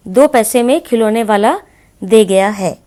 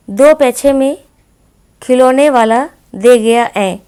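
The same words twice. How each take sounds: First: Said in the usual way. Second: पैसे as पैछे and है as ऐ, louder and slow; childish lisp. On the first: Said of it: "शुद्ध कैसे लिखेंगे". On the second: Shown as a demonstration. Teacher reads the child's lisping sentence. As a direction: lisp it like a toddler. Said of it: "इसको आप शुद्ध कैसे लिखेंगे".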